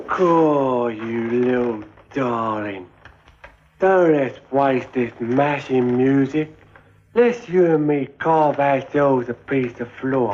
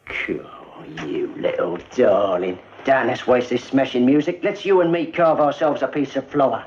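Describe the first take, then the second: First: Slow, careful copy of the smooth line; clumsy copied chat-up. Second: Confident chat-up. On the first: Retold or imitated. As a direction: rehearse the charmer's line haltingly. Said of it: "Yeah, I like that". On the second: Shown as a demonstration. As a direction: purr it like a dance-hall Romeo. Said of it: "I walk up to him like this here".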